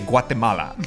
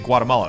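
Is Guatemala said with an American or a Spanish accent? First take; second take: Spanish; American. First: It is said with a Spanish accent. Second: It is said with an American English accent. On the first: "They're not going to say" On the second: "is going to say"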